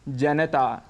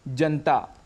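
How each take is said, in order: First: The vowel after the n is pronounced. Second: The vowel after the n is dropped. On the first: The speaker calls it right. "इसका शुद्ध उच्चारण है जनता" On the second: The speaker calls it wrong. "हम अक्सर शब्द प्रयोग करते हैं जनता"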